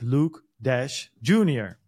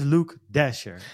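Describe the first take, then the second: First: The surname sounds like 'Dash Junior'. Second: The surname sounds like 'Dasher'. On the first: The speaker calls it wrong. "ik zei natuurlijk vorige week Luke Dash Jr" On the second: The speaker calls it right. "maar het is Luke Dasher"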